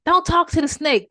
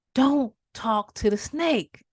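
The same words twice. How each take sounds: First: High and louder, pressing the warning; urgent warning. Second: Slowly drawn-out warning; very slow grave warning; slow ominous warning. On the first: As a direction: warn him sharply and loud. Passerby warning the man. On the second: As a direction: stretch every word like a omen. People kept warning him. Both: Acted.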